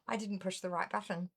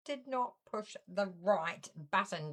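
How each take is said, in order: First: Said in the usual way. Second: "not" split off from "did" and leaned on hard; stress on not. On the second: Real, not acted. Host correcting herself with emphatic stress on "not". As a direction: hit "not" in "Did not push the right button".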